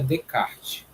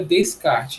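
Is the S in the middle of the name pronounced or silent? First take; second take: silent; pronounced. First: The S in the middle is silent. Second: The S in the middle is pronounced. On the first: This is how the name is actually pronounced. "a pronúncia em si é Descartes. Por conta dele ser francês, esse S não sai" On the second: This is how the name is written. "a escrita é Descartes"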